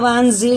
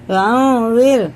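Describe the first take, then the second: First: The consonant is a hard buzzing z sound. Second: The consonant is a soft th with tongue at teeth. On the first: The speaker calls it wrong. "इसे वांजीर नहीं पढ़ेंगे" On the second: The speaker calls it right. "जुबान की नोक आगे वाले ऊपर वाले दांतों के किनारे से लगा के"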